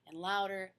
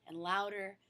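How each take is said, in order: Both takes have the same delivery.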